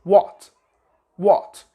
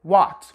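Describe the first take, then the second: First: What with a rounded British O, lips shaped. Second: What with an open American A. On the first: Teacher models the British what. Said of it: "they shape their mouth this way". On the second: Teacher models the American what. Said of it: "Americans would say". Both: Shown as a demonstration.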